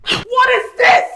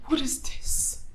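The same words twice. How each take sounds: First: Slow, raised-voice demand; angry shout. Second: Hushed, low disbelief; quiet reproach. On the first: Wife confronting husband who didn't show up, angry shout. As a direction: shout it slowly in outrage. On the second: Wife confronting husband who didn't show up, quiet reproach. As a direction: barely voice it, much softer. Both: Acted.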